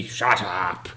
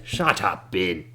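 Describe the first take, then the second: First: Put-on curt old man's snap; old man silences Ben Dubas; cranky old man. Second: Put-on curt old man's snap; old man silences Ben Dubas again; cranky old man. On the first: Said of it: "And he". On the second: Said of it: "old man silences Ben". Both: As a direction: cut him off with a snap.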